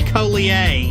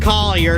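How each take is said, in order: First: The name has a French pronunciation. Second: The name has a Southern American pronunciation. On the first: The family would come from France. "If I was from France, it'd be Collier" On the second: The family comes from the American South. "it's pronounced Collier because we're from the south"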